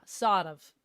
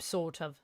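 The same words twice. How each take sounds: First: "sort of" with an open ah and no r; Australian "sort of", r dropped to a long ah; Australian vowel. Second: Said in the usual way. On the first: Shown as a demonstration. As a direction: say "sort" as "saht", Aussie style. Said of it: "Aussies R sound more of an A sound". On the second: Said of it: "Aussies R sound more of an A".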